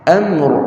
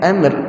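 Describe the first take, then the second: First: The r sound is heavy and thick. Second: The r sound is light and thin. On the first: The speaker calls it right. "baris atas tebal eh?" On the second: The speaker calls it wrong. "jangan amr eh?"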